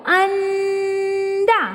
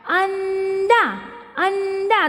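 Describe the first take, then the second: First: Sung, अंडा stretched very slowly with a long nasal न between अ and ड; sung, hold the nasal sound in अंडा so children hear it; sung, teacher showing the nose sound in अंडा; nasal hum drawn out. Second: Said in the usual way. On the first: Shown as a demonstration. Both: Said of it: "अ और ड में न सुनाई दिया आपको".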